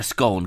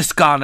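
First: "scone" with a long O, as in bone; scone rhyming with bone. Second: "scone" with a short open O, as in gone; scone rhyming with gone. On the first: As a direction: say "scone" to rhyme with tone. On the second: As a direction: say "scone" to rhyme with on. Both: Shown as a demonstration. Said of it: "Some people call it a scone".

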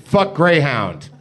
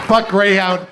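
First: "Fuck Greyhound" drawn out slowly and firmly; announcing the subject line, slow and deliberate. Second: "Fuck Greyhound" shouted louder and higher; reading the whole email body as a loud yell; blurted email. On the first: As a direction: read it slow, like a title. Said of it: "Subject line". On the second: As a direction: fire it off as a yell. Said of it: "It's just". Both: Shown as a demonstration.

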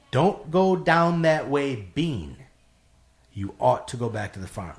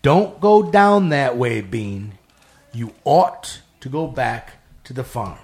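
First: Another, solemn voice. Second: Slow, loud, drawn-out warning, dropping on Bean; another, otherworldly voice. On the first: Narrator replays the lady's warning in a slow, solemn other voice. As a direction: repeat the omen with measured, restrained weight. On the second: Street lady suddenly warns the narrator in another voice, slow and commanding. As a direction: deliver it as a weighty, measured pronouncement. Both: Retold or imitated. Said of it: "in another voice".

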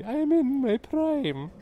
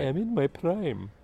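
First: Hammed-up Irish accent, much higher and slow. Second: Put-on light Irish accent, slower, a touch higher; slow Irish lilt, playing Miss Brodie. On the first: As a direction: stretch it out in a high Irish lilt. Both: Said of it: "Didn't know you could do an Irish accent".

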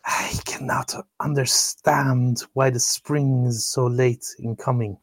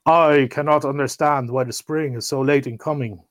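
First: Whispered, slow, the wrong character voice. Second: The selfish giant's own voice, voiced aloud. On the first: Shown as a demonstration. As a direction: breathe it out in a whisper. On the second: A narrator's reading. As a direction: give the giant's line properly voiced. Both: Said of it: "Oh, wrong voice".

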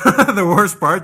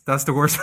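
First: Louder, slow, through a laugh; laughing emphasis. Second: Said in the usual way. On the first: Real, not acted. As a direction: lean in hard while laughing. Repeats phrase with more force.

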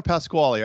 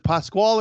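First: Pasquale in three syllables, ending on "-lee"; Pasquale pronunciation. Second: Pascual in two syllables, ending on "-kwal"; Pascual pronunciation. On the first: Host checking the guest's surname, Pasquale ending on "-lee". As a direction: say Pasquale with a final "ee" sound. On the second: Host checking the guest's surname, Pascual ending on "-kwal". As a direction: say Pascual with no final vowel sound. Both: Shown as a demonstration. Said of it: "is it Pascual or Pasquale".

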